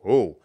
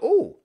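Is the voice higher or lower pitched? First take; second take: lower; higher. First: It is said in a lower pitched voice. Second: It is said in a higher, normal voice.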